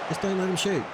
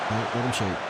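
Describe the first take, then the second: First: "shoot" lifted high and urged; higher insistent repeat. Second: Said in the usual way. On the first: Real, not acted. Urging his defenders under attack, higher and insistent. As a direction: pitch it up, pleading with the defenders.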